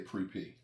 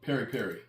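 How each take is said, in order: First: Each half is squeezed into one syllable. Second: Each half is said with two syllables. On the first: "I'd say pre pre" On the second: "How do you pronounce it?"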